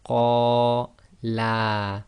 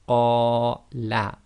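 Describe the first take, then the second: First: The final vowel is long. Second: The final vowel is short. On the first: Two men said it. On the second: One man said it.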